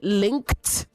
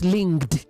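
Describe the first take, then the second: First: The final consonant sound is voiceless. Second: The final consonant sound is voiced. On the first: The speaker calls it right. "The K is voiceless ... that then affects the D after it" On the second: The speaker calls it wrong. "not linked"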